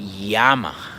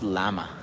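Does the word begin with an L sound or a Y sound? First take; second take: Y sound; L sound. First: The word begins with a Y-like sound. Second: The word begins with a plain L sound. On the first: This is how Spanish speakers say it. The speaker calls it right. "the pronunciation for this for this letter is eye. We say llama" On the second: This is how English speakers say it. The speaker calls it wrong. "Not llama"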